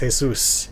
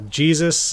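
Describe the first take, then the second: First: The name is said with Spanish sounds. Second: The name is said with English sounds. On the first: The speaker calls it right. "It's always Jesus" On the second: The speaker calls it wrong. "I was originally calling them uh, Jesus"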